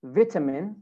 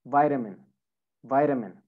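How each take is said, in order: First: British "vitamin" with short i, VIT-a-min; British pronunciation. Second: American "vitamin", VAI-da-min; American pronunciation. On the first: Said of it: "in British accent". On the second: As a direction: say "vitamin" with a long i, like "vite". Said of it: "in American accent". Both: Shown as a demonstration.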